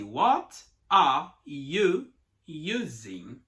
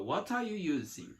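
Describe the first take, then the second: First: Slow, every word pulled apart. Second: Smooth, words run together as one; linked together. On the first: Teacher showing the wrong, choppy way, slow and separated. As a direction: say each word separately, slowly. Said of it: "você não pode falar assim". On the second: Teacher showing the natural flow, words linked. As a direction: glide it out in one breath. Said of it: "Tudo junto, ó". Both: Shown as a demonstration.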